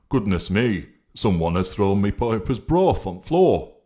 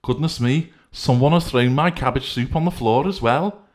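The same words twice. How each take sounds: First: A slightly raised, louder character voice; lightly voiced, a touch up and louder; Honesty exclaiming over spilled broth, mildly raised; Honesty's voice. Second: High, loud exclaiming character voice; Decency fussing over the soup, high and loud; Decency's voice. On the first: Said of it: "remarked Honesty". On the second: Acted. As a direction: pitch it well up and louder, fussing. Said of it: "remarked Decency".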